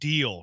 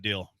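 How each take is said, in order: First: The vowel is long, rhyming with meal. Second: The vowel is short, rhyming with mill. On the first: The speaker calls it right. "Deal is like meal, not mill" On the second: The speaker calls it wrong. "not deal"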